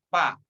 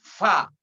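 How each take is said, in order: First: Both lips close together for the first sound. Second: Teeth touch the lip with air blown through. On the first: The speaker calls it wrong. "Sebut huruf fa bibirnya nempel" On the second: The speaker calls it right. "gigit sedikit sambil ditiup"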